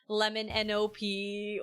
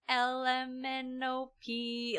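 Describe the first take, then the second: First: The first letters run together into one word. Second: Each letter is said slowly and separately. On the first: The speaker calls it wrong. "they just garble it all together" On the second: The speaker calls it right. "we just slowed down the letters"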